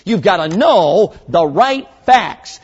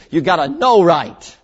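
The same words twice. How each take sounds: First: Slow, louder "know the right facts"; the full correct line, slow and emphatic; corrected phrase. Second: "know right" slow and weighty, wrong on purpose; deliberately bad English. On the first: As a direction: stress "know" in "You've gotta know the right facts". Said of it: "it's not good English, but you'll see". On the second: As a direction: punch "know" in the broken phrase "You've gotta know right". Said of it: "it's not good English". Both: Shown as a demonstration.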